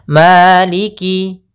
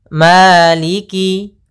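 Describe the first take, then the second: No difference in how they are said.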